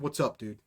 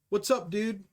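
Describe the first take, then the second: First: It is said in a negative, hostile tone. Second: It is said in a friendly, upbeat tone.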